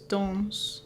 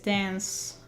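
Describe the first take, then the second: First: The word has a French-sounding vowel. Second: The word has an English-sounding vowel. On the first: "but in French it's Dance" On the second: "in English it's dance because of the A"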